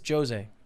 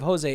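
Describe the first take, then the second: First: The J at the start is clearly pronounced. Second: The J at the start is not pronounced. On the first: The speaker calls it right. "In Portuguese, you pronounce the J" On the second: The speaker calls it wrong. "Instead of Jose"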